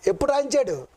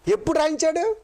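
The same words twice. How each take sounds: First: ఎప్పుడు రాయించాడు with a firm falling close; falling question. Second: High, rising challenge on రాయించాడు; rising question. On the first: Preacher repeating his question to the congregation, falling firmly. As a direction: press the question down, insisting. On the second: Preacher quizzing the congregation with a high rising question. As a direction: toss the question up high to the crowd. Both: Shown as a demonstration. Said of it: "చూసారు ఎంత జాగ్రత్త".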